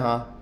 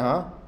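First: It is a falling, agreeing yes. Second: It rises like a puzzled question.

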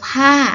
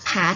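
First: The syllable carries the tho tone. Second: The syllable carries the ek tone. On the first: "ผาโท" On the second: "ผาเอก"

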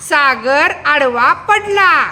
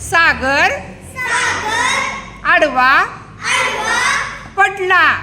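First: The whole sentence is read in one go. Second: Each word is read separately with pauses. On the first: "त्याच्यानंतर पूर्ण वाक्य वाचायचं" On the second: "1 शब्द आधी वाचायला लावायचा"

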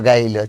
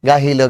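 First: The h sound in the middle is dropped. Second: An h sound is kept in the middle.

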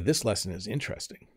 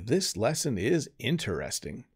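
First: 'Interesting' is said quickly, with its syllables run together. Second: 'Interesting' is said slowly, with every syllable clear. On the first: "when I say it at full speed" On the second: "If I was to emphasize it"

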